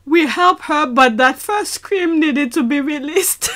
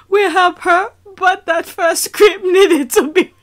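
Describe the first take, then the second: First: Said in the usual way. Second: Cracking up while reading; laughing. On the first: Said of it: "let me read that last sentence". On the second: Real, not acted. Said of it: "I keep on laughing".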